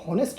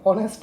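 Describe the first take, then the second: First: The word starts with an audible h sound. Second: The word starts with a vowel, no h. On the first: The speaker calls it wrong. "ये हॉनेस्ट नहीं है" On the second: The speaker calls it right. "यहाँ पर एच जो है वो silent है"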